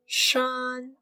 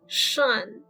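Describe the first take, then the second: First: The syllable has a high level first tone. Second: The syllable is said without a high level tone.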